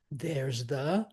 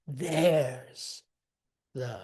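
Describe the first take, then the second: First: "There's THE", rising on the; stress on THE. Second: THERE'S drawn out strong, "the" light; trochee attack. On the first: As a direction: lean wrongly on "the" after "There's". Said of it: "we don't want the". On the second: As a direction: attack "There's", then drop back on "the". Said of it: "attack with a, with a trochee". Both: Shown as a demonstration.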